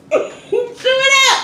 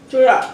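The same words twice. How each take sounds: First: Higher, slow laughing plea. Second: Said in the usual way. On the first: Real, not acted. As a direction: giggle out chew it up.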